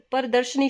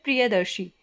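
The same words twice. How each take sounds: First: प्रदर्शनी said "par-darshani"; rejected word form. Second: प्रियदर्शी said "priya-darshee"; correct word form. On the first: Teacher rejecting this form, "par-darshani" for प्रदर्शनी. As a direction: say प्रदर्शनी with "par" and final "nee". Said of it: "शब्द नहीं होता". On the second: Teacher giving the correct word, "priya-darshee" for प्रियदर्शी. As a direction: end प्रियदर्शी on "shee", with no n. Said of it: "शब्द होता है". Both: Shown as a demonstration.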